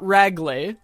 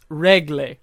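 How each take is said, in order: First: The first vowel sounds like the one in 'rag'. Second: The first vowel sounds like the one in 'reg'. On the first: The speaker calls it wrong. "It's not ragle" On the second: The speaker calls it right. "It's regle, like that. It's like a reg"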